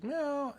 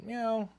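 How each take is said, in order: First: Very high tiny mock meow; an even higher kitten meow; imitating a kitten. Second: High little mock meow; a small high kitten meow; imitating a kitten. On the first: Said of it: "and it goes". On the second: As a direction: squeak it out like a tiny kitten. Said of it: "And it looks up at me and goes".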